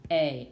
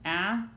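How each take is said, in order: First: "a" said as its name, "ay"; long vowel "ay" for the letter A. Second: "a" said as in cap; short vowel "a" as in cat. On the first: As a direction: give "a" the sound in cape. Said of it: "V C E". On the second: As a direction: give "a" the short closed-syllable sound. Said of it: "Here we have closed". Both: Shown as a demonstration.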